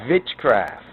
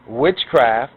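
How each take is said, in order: First: The word begins with a V sound. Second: The word begins with a W sound.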